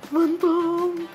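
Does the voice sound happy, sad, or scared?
scared. It is said in a frightened, scared voice. "o natatakot ka naman"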